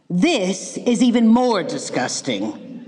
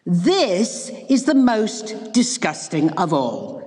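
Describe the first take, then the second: First: Slow, stretched disgust in a put-on girl voice; drawn-out disgust. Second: Slow, stretched disgust in a put-on girl voice; slow exclaimed disgust. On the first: Goldilocks to herself, tasting rotten rabbit, slow disgust. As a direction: savour each word of the disgust slowly. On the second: Goldilocks after the third rabbit, slow exclaimed disgust. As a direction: drag the words out in peak revulsion. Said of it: "she exclaimed".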